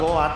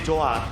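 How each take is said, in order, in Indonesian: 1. Kata ini diawali bunyi G keras. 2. Kata ini diawali bunyi J. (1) "Kan Goat" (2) "jadi Joat"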